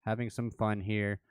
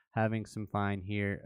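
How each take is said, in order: First: Said in the usual way. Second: "fun" comes out sounding like "fine"; accidental "fine" in place of "fun"; slip of the tongue. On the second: Real, not acted. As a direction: stumble on "fun", saying it with the vowel of "fine".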